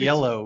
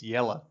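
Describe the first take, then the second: First: The word ends with a full 'oh' vowel. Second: The word ends with a reduced 'uh' vowel. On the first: "not yellow" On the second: "it's Yella"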